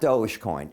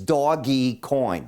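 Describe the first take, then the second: First: The first part is one syllable, 'dohj'. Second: The first part is two syllables, 'doggy'. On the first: The speaker calls it wrong. "everybody calls it Dogecoin. It's not Dogecoin" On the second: The speaker calls it right. "It's Doggy Coin. They put a dog up there"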